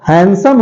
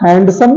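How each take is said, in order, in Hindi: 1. d ध्वनि silent है। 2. d ध्वनि बोली जाती है। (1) "हैंडसम होता है" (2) "हैंडसम तो नहीं होता है"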